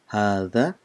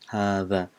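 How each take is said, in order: First: The middle consonant is a soft 'th' sound. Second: The middle consonant is a soft 'th' sound.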